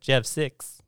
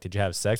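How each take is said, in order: First: The vowel in 'sex' sounds close to i. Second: The vowel in 'sex' is a plain e sound. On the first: "They pronounce their E's like" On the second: "instead of like"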